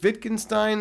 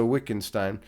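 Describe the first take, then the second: First: The name is said with a German pronunciation. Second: The name is said with an American English pronunciation. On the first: "in German, they pronounce it Wittgenstein" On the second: "in American English, we pronounce it Wittgenstein"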